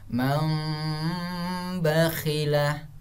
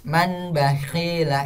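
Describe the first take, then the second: First: A nasalized m sound comes before the b. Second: A clear n sound comes before the b. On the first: The speaker calls it right. "Yang benarnya cara bacanya" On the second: The speaker calls it wrong. "ini kurang benar"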